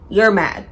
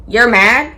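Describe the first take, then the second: First: Said in the usual way. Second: Louder, rising disbelief at his anger; incredulous question. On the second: Real, not acted. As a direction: toss it back as a baffled challenge. Boyfriend slams the door.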